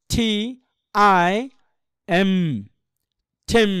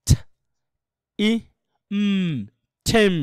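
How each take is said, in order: First: টি, আই, এম as separate letter names, then ঠেম; name each letter, pause, then join into ঠেম; spelling out. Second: ঠ, ই, এম as isolated sounds, এম a closed-lip hum, then ঠেম; sounding out. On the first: Teacher shows how spelling is done, letter by letter টি আই এম. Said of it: "মানে spelling করা হবে এইভাবে". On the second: Teacher shows pronunciation instead of spelling, sounding out ঠ ই এম. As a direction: sound out ঠ, ই, hummed এম, pause between, blend to ঠেম. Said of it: "এটা হচ্ছে উচ্চারণ". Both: Shown as a demonstration.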